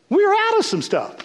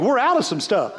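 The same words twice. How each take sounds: First: We're out of some stuff said much higher, pressed hard; emphatic repeat. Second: Said in the usual way. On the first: Shown as a demonstration. Preacher insisting to the congregation, higher and emphatic. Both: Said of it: "you want me to be honest with you".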